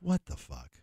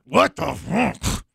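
First: It is said in a relaxed, passive tone. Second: It is said in a harsh, aggressive tone. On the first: The speaker calls it right. "Say it kind of you passively" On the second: The speaker calls it wrong.

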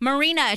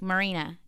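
First: The name is yelled loudly. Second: The name is said at normal volume.

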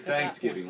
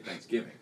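First: The stress is on the first syllable. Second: The stress is on the second part. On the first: "you say Thanksgiving like you say umbrella and insurance" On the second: "I put the emphasis on the other one"

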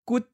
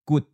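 First: The syllable is said in the eighth tone. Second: The syllable is said in the fourth tone. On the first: "That's eighth tone" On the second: "That's fourth tone"

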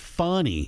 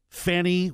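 First: The first syllable sounds like 'fun'. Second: The first syllable sounds like 'fan'. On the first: The name is pronounced the way its owner says it. The speaker calls it right. "I know the correct pronunciation is funny" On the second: The name is deliberately mispronounced as a jab. The speaker calls it wrong. "I like to call her Fannie Willis"

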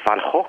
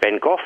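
First: The name is said with a Dutch pronunciation. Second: The name is said with an English pronunciation.

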